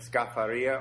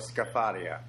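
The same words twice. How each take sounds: First: The stress falls on the E-sound syllable. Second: The stress falls on a different syllable.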